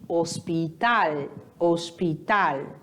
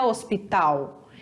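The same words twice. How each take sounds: First: Hospital, slow, with a clear final L; hospital, land firmly on the L; Spanish pronunciation. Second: Hospital with the final L said as U; Portuguese pronunciation. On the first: Teacher showing the right Spanish way, slow. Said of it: "o L sempre vai ter som de L". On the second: Teacher showing the wrong Portuguese way. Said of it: "nunca vai ter som de U". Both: Shown as a demonstration.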